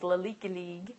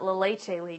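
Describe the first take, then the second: First: Leche is given a playful, altered pronunciation. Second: Leche is given its standard pronunciation. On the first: It is said as a tease. The speaker calls it wrong. "as my first leader used to tease" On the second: It is the real name. The speaker calls it right. "is how you actually pronounce it"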